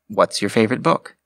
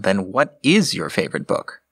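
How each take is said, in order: First: Is is contracted and carries no stress. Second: Is is said fully and stressed. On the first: A plain question with no contrast. "The contracted version of the question would lose that nuance" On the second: It contrasts with the answer that was just denied. "Emphasizing the is contrasts it more against what you just stated"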